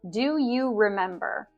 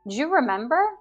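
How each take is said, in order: First: Do and you are said as full words. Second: Do and you blend into one syllable, ju. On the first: "I didn't pronounce do you" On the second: "We can elide do and you. Do you becomes ju"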